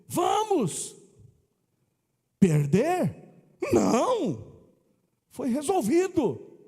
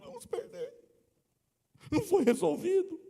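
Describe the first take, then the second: First: A question rise, then a pause after 'não'. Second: The pause comes before 'não', then 'não foi resolvido'.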